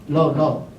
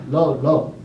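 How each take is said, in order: Both takes have the same delivery.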